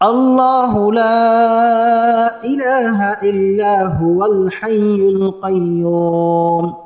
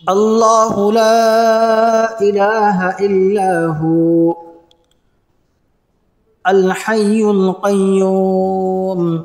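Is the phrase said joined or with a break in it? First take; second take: joined; break. First: It runs on smoothly into huwal without a break. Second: It has a break after illahu.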